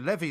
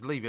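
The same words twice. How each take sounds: First: It is said the way the flood-bank word is. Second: It is said the way the surname is. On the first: It names the river embankment. "A levy is the thing that burst" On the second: It names the person. "It's levy"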